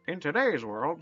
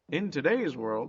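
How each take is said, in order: First: It is read in a put-on 1930s voice. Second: It is read in his ordinary voice.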